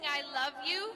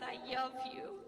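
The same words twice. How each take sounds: First: The word love begins with a clear L. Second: The word love begins with a W sound. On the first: "instead of saying" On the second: "he said his L sounds like they were wise"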